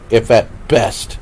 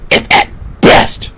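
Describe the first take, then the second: First: The phrase is said at normal volume. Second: The phrase is yelled loudly.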